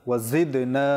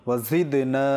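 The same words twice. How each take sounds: No difference in how they are said.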